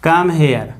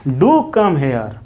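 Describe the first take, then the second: First: Said in the usual way. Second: "do" said with weight at the start, the rest slow; stress on do. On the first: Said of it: "आप लोग बोलते होंगे". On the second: Shown as a demonstration. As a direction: lean hard on "do" and draw the line out. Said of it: "emphatic बनाना होता है तो इसके पहले do लगाते हैं". ("do" पर ज़ोर देकर धीरे से)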